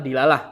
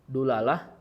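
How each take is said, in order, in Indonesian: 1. Vokal pertama adalah bunyi i. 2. Vokal pertama adalah bunyi u.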